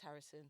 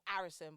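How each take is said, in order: First: The first vowel is said plainly, without extra stress. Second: The first vowel gets heavy, drawn-out stress. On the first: The speaker calls it right. "Just Harrison" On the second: The speaker calls it wrong. "people go Harrison, but it's you don't need to stress it"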